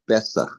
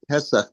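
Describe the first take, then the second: First: The word begins with a B sound. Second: The word begins with a P sound. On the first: "they say Besach" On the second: "Like Pesach"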